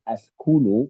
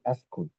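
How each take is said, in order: First: The word ends with a final u vowel. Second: The word ends without the final vowel. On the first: "askunu with the dhamma" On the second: "you say askun"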